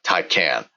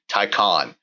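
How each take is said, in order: First: The second syllable does not sound like 'con'. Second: The second syllable sounds like 'con'. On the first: The speaker calls it wrong. "not Taycan" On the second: The speaker calls it right. "The correct pronunciation will be Taycan, as if it was spelled T A Y C O N"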